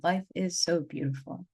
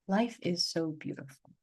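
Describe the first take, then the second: First: Said in the usual way. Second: Awed echo. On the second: Retold or imitated. Coming back from the Bufo trip, echoing herself in awe. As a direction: repeat it, lingering in awe. Crying and laughing after Bufo.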